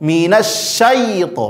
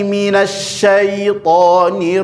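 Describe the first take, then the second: First: The ya sound is pressed hard and stressed. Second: The ya sound is soft and light. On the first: The speaker calls it wrong. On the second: The speaker calls it right.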